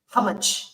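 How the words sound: It is said deep in the throat, South African-style. The speaker calls it right. "you gotta use your throat with it"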